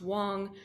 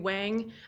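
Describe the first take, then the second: First: The surname is said with its native vowel. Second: The surname is said with an anglicized vowel. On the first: The speaker calls it right. "which is pronounced Wong" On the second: The speaker calls it wrong. "I mispronounced my Chinese last name"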